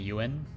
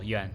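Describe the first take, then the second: First: The name is said as two syllables. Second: The name is said as one syllable. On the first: The speaker calls it wrong. "it's just easier to pronounce it as two syllables" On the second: The speaker calls it right. "if you want to pronounce it correctly ... pronounce it as like one syllable"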